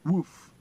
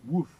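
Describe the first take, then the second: First: A loud, high woof like a barking dog; imitated dog bark. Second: Said in the usual way. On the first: Shown as a demonstration. Teacher showing the English dog sound, loud bark. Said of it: "Em inglês". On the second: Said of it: "Eles escrevem aqui a".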